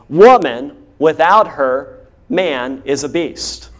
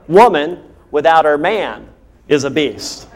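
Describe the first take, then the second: First: The pause falls after the word her. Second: The pause falls after the word man. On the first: The man is the beast. "Watch this" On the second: The woman is the beast. "where you put the comma totally changes the whole meaning of the sentence"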